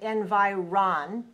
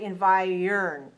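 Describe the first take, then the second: First: The last syllable sounds like 'ron'. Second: The last syllable sounds like 'earn'. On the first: The speaker calls it wrong. "it looks like we might say environ, but we don't want to say it that way" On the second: The speaker calls it right. "the third syllable, doesn't sound like ron, it sounds like earn"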